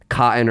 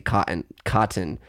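First: The middle T is dropped, not clearly released. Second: The middle T is clearly released as a hard T. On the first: "we do drop hard consonants in the middle of words, like cotton" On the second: "If I think about it, I can say mountain and I can say cotton"

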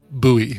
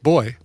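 First: The word does not sound like boy. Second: The word sounds exactly like boy. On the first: This is how many Americans say it. "a lot of my American friends pronounce it buoy" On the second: This is how a sailor from England says it. "I pronounce it like boy"

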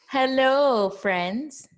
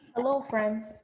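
First: It is said loudly. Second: It is said softly.

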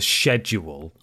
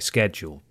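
First: The word is said in a non-North American way. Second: The word is said in a North American way.

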